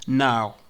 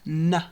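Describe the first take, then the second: First: The word is said fully with its full vowel. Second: The word is reduced to a short weak vowel.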